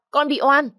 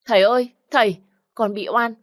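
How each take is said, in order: First: Even higher, louder wail; frightened girl's peak cry of innocence; desperate cry. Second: Frightened cry, higher and louder; scared girl shouting for help. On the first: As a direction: scream it out at full pitch. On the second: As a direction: wail to her father as she's dragged away. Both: Acted. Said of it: "nó vẫn gào lên".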